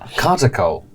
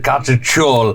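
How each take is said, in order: First: The last syllable begins with a k sound. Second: The last syllable begins with a ch sound. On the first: "but they're pronouncing it, Col" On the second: "I'll pronounce it the Turkish way"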